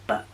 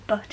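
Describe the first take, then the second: First: "but" cut off in the throat, no t; "but" said as bu'; glottal final T. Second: "but" ending in a crisp t; final T sounded. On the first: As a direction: swallow the t at the end of "but". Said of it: "instead of but". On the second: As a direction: release the t in "but". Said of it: "pronounce all the T's". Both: Shown as a demonstration.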